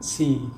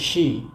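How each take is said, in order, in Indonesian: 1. Kata ini diawali dengan bunyi s. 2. Kata ini diawali dengan bunyi sh. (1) "bukan si" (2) "kita bacanya she"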